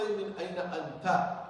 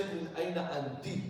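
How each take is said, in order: First: من أين أنت with final anta, masculine ta; teaching the wrong form to a female; wrong masculine ending. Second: من أين أنت with final anti, feminine ti; teaching the correct form for a female; right feminine ending. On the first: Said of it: "you should not say". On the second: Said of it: "You should say". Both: Shown as a demonstration.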